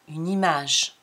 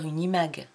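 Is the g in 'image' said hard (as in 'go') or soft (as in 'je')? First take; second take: soft; hard. First: The g is said soft, like 'j'. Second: The g is said hard, as in 'go'. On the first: The speaker calls it right. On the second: The speaker calls it wrong.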